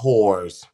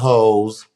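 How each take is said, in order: First: The word ends with a clear r sound. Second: The word is said with no r sound. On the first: The speaker calls it right. "you need to add the W and you need to add to add the R" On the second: The speaker calls it wrong. "mispronounce things or cut it in half"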